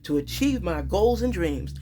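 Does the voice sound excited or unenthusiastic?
excited. It is said with excitement and conviction. The speaker truly believes it will happen. The speaker calls it right. "When you believe in something and you're excited about it"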